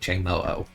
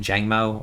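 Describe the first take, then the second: First: The name ends in two separate 'o' sounds. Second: The name ends in a single 'o' sound. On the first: "like Jangmo-O? ... Like Ho-Oh"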